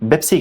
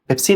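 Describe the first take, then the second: First: The word begins with a b sound. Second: The word begins with a p sound. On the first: This is how Arabic speakers say it. "अरबी में वो पेप्सी नहीं बेप्सी कहते हैं" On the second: This is how Urdu speakers say it. "Urdu में हम पेप्सी कहें"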